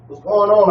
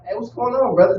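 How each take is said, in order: First: Hard, confrontational what's going on; aggressive mock challenge. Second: High, light, easygoing hello; friendly brotherly greeting. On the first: To strangers in a car, a mock hostile greeting. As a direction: toss it out like picking a fight. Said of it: "like, with an attitude". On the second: Retold or imitated. To strangers pulling alongside, a friendly high greeting. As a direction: greet them like old friends, no threat. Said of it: "with an attitude instead of just like".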